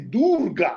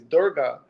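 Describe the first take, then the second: First: The name is said with exaggerated foreign-sounding pronunciation. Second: The name is said plainly, in an everyday way. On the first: The speaker is trying too hard to sound authentic. "try to overcorrect and say Durga, like they they just go all in" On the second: This is the usual way people say it. "most people say that"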